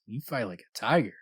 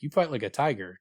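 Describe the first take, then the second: First: Suggestive, flirtatious. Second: Matter-of-fact, as if just an observation; calm, matter-of-fact. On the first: She rubs his arm to show a sexual advance, said flirtatiously. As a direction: linger on the words as a come-on. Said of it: "rubbing his arm, squeezing his muscles". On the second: She shows him by example, said calmly and matter-of-factly. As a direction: state it casually and evenly. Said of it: "calmly, like, ... just kinda matter-of-factly". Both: Acted.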